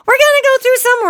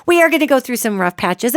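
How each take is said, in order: First: The repeat pitched much higher and louder; emphatic high repeat. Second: Said in the usual way. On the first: Real, not acted. Host stressing to listeners that hard times will come, pitched high and loud.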